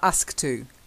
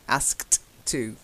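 First: The t of asked is dropped before to. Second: The t of asked is heard before to. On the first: The speaker calls it wrong. "not ask to. That's not how we pronounce it" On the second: The speaker calls it right. "You've got to have the two separate"

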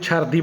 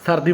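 First: The word begins with a ch sound. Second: The word begins with an s sound.

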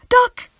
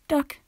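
First: It sounds like an urgent shouted warning. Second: It sounds uncaring and offhand.

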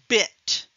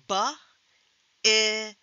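First: The word is said smoothly as one unit. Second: The word is said as three separate sounds. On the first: "listening to the whole word" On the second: "breaking it down into smaller parts"

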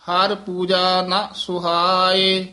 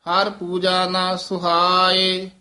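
No difference in how they are said.

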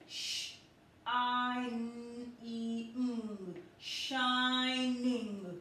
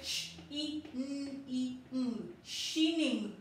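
First: The first vowel sounds like the letter name. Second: The first vowel is a short sound. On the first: The speaker calls it right. "we are going to pronounce it as using the letter name I" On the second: The speaker calls it wrong. "We cannot say sh, e, n, e, n, shining, no"

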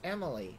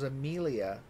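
First: The name ends with an 'ee' sound. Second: The name ends with an 'ah' sound. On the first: The speaker calls it right. "It's Emily" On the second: The speaker calls it wrong. "I thought it was Amelia"

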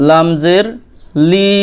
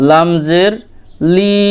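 The two takes are said the same way.

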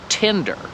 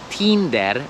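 First: It is said with an English vowel sound. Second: It is said with a Polish vowel sound. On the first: "I w tym przypadku jest i" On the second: "po polsku to się wymawia Tinder"

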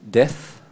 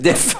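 First: It is said with a plain English accent. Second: It is said with a French accent, like deaf.

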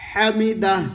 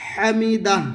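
The two takes are said the same way.

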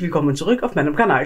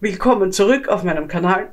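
First: The phrase is spoken quickly and rushed. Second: The phrase is spoken at a calmer, slower pace. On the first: The speaker calls it wrong. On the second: The speaker calls it right.

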